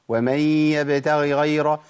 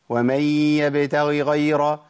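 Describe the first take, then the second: The two takes are said the same way.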